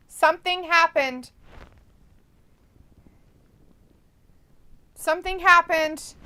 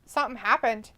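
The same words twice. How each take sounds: First: Louder, higher announcement; excited. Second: Said in the usual way. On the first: Real, not acted. Streamer telling chat about the Olympics, loud and excited. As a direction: build it up with rising alarm.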